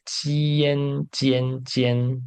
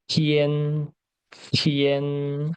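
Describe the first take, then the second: First: "Tian" said like "Jian", no puff of air; without blowing air. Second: TIAN with a breathy T, tongue at the teeth, vowel held level; aspirated "Tian", held long and level; tongue between the teeth. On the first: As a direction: say "Tian" as an unaspirated J sound, tongue kept back. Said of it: "E sem assoprar". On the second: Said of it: "A língua fica no meio do, dos dentes". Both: Shown as a demonstration.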